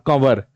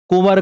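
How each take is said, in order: First: The first syllable has the vowel a. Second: The first syllable has the vowel u. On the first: This is the changed, dialect form of the word. "कुंवर का हो गया कंवर" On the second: This is the original form of the word. "कुंवर का हो गया कंवर"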